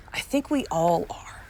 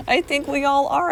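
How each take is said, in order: First: A whispered, unvoiced aside to herself. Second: Higher and louder, a rising, emphatic repeat. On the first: Host whispers aside to listeners, then repeats it aloud. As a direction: whisper it as a private thought. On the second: Host repeats her whispered aside aloud to listeners, higher and louder. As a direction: say it out loud for all to hear. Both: Real, not acted.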